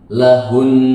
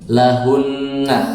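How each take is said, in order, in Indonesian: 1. Kata ini berakhir pada konsonan n yang ditahan. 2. Kata ini berakhir pada n sengau plus vokal. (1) "ketika disukun menjadi lahun, hanya menghilangkan harokatnya" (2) "kalau dia baca berharokat kan lahunna, ada gunahnya"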